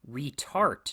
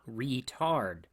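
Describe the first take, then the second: First: The word ends with a t sound. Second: The word ends with a d sound. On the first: The speaker calls it wrong. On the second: The speaker calls it right.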